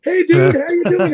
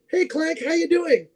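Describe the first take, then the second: First: Higher, imitating a buddy's hello; a pumped-up, mock-friendly dude greeting; Scott's greeting. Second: Higher and softer, imitating her hello; a bright, mock-cheery hello; cheery friend greeting. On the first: Scott Hatch greets on video.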